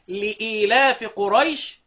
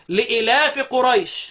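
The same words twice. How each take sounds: First: The hamza is followed by a long 'ee' vowel. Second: The hamza is followed directly by 'laf', no long vowel. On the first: This is the other readers' reading. "والباقي" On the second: This is one reader's variant reading. "الهمزة ما مكسورة"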